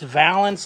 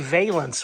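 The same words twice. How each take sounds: First: It is said to rhyme with balance. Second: It is said not rhyming with balance. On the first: The speaker calls it right. "I think it's valence like balance" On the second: The speaker calls it wrong. "but I still say valence whenever I say it out loud"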